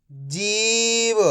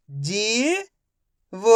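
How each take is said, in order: First: जीव joined without a pause; slow जीव with a long ee; blended word. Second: जीव split as जी, pause, व; syllable by syllable. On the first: Teacher blending जीव for young readers, joined up. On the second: Teacher sounding out जीव for young readers, syllable by syllable. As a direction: sound out जीव in two long pieces, first rising. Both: Shown as a demonstration. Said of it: "तो मिलके बन जाएगा".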